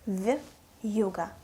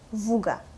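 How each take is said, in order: First: A y-sound separates the v from the vowel. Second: The v goes straight into the vowel. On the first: "It's the word вьюга" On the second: "If we don't have a soft sign, it will be"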